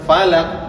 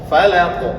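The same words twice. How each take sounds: First: The final q stops flat without echo. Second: The final q ends with a bouncing echo. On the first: The speaker calls it wrong. "Jadi jangan falaq. Salah itu cara bacanya" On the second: The speaker calls it right. "Karena qaf memiliki sifat qalqalah"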